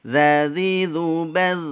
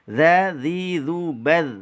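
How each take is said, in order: Both takes have the same delivery.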